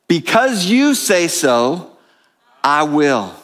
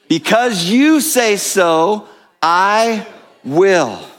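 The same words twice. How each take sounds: First: It is said calmly, with ordinary energy. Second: It is said with more energy and force.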